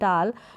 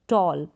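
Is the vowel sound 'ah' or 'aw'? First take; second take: ah; aw. First: The vowel is an open 'ah' sound. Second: The vowel is a rounded 'aw' sound. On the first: The speaker calls it wrong. "ऐसे नहीं बोल सकते" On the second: The speaker calls it right. "Pronounce करेंगे"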